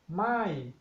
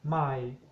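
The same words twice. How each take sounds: First: The word is said on a falling tone. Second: The word is said on a low tone. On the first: It means no or not. "The falling tone my" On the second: It means new. "low tone my"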